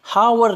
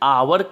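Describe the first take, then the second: First: It begins with an audible h sound. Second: It begins directly with a vowel sound. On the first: The speaker calls it wrong. "हावर नहीं कह के" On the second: The speaker calls it right. "बल्कि आवर कहते हैं"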